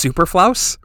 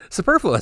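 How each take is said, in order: First: The word ends with a 'flouse' sound. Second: The word ends with a 'fluous' sound. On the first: The speaker calls it wrong. "I've never heard it, I've only read it" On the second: The speaker calls it right. "how do you say it?"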